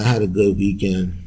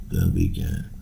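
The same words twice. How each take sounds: First: Said in the usual way. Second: A breathy whispered repeat under the breath; whispered echo. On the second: Real, not acted. Podcaster echoing his own words, in a whisper. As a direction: whisper it back to yourself, like a private aside.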